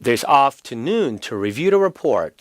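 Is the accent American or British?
British. It is said in a British accent. "영국 발음일 때는"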